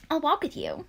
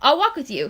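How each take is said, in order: First: "I'll walk with you" higher and much softer, sugary; said sweetly. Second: Said in the usual way. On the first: Shown as a demonstration. Luke offering to walk Ella to class, said sweetly. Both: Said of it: "he said sweetly".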